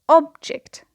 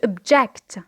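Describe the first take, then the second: First: The stress is on the first syllable. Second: The stress is on the second syllable. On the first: It is a noun meaning a thing. "an object, the stress is on the first syllable" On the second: It is a verb meaning to disagree. "here the stress is on the second syllable because it is a verb"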